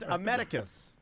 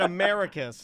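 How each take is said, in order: First: The name sounds like the words a medic. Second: The name sounds like the word America. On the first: The speaker calls it right. "like a medic" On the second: The speaker calls it wrong. "like he's an America Vespucci who discovered it"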